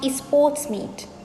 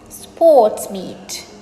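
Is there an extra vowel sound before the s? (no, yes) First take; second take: yes; no. First: An extra vowel sound comes before the s. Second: It begins directly with the s sound. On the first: The speaker calls it wrong. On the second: The speaker calls it right.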